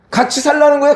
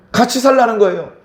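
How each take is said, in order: First: 거예요 pushed up high and loud at the end; an urgent plea that peaks on 거예요; emphatic exhortation. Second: 살라는 leaned on, then a falling close; firm restatement weighted on 살라는; stress on 살라는. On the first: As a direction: lift 거예요 sharply, higher and louder. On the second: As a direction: press on 살라는 and let the phrase fall. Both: Shown as a demonstration.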